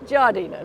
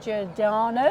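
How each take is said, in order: First: The name ends with an 'ina' sound. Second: The name ends with an 'ano' sound. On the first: The speaker calls it right. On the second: The speaker calls it wrong.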